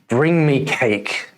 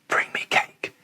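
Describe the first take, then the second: First: It is spoken aloud in a normal voice. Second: It is whispered without any voiced sound.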